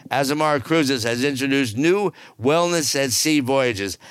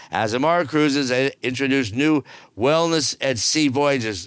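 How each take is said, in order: First: Said in the usual way. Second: Bored reread. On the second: Shown as a demonstration. Host rereads the wellness cruise news, mock bored. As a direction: drag it out like it bores you. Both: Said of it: "Excuse me while I yawn".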